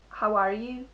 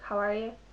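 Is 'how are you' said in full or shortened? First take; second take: full; shortened. First: The phrase is said fully, each word clear. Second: The phrase is said shortened, words run together.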